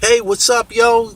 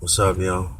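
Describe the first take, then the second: First: It is said in a cheerful, upbeat tone. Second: It is said in a flat, gloomy tone.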